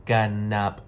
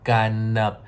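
Both takes have the same delivery.

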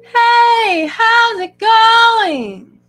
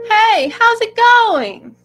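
First: The words are stretched and drawn out. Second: The words are short, like normal speech.

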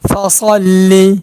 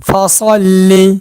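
The two takes are said the same way.

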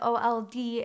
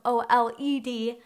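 First: The word sounds much like 'old'. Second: The word does not sound like 'old'. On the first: The speaker calls it wrong. "I said OLED instead of OLED" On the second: The speaker calls it right. "I promise it is OLED and not OLD old"

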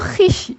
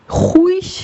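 First: An i sound follows the h directly. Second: A u sound follows the h. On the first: The speaker calls it right. "Bunu hiş" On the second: The speaker calls it wrong. "Huiş veya haviş diye okumuyoruz"

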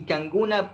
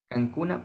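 First: The middle consonant is a voiced g sound. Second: The middle consonant is a hard k sound. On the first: This is how it is spoken. "Se escribe con la K, pero se pronuncia con la G" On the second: This is how it is written. "se escribe"

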